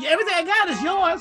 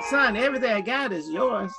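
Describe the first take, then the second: First: It is said in a harsh, scolding tone. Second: It is said in a gentle, tender tone.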